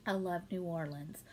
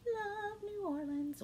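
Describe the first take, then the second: First: Said in the usual way. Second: High, slow and drawn out; sing-song gush. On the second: Real, not acted. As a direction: gush about it like a tune. Repeats phrase, second drawn out.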